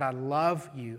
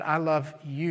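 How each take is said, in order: First: The word love carries the stress. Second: The word you carries the stress. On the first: It stresses having affection and devotion. "and you emphasize the word love" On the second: It stresses who the one being loved is. "and then I love you"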